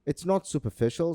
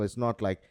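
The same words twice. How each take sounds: First: "not" lifted high; "It's not superficial" with a high rising "not"; stress on not. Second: Said in the usual way. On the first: Real, not acted. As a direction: lean on "not" and rise. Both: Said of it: "when I say superficial".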